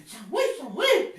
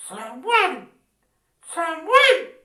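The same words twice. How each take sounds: First: A hint of a trumpet call, lower. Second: Low, booming trumpet call. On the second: Acted. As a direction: call the name like a trumpet blast. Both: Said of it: "le dijo con voz de trompeta".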